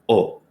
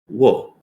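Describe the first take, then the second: First: The syllable is a bare o vowel. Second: The syllable begins with a w sound. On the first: The character marks the object of the sentence. "when you're using it as an object marker, you'll say o" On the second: The character is read as usual. "normally, you would pronounce this character as wo"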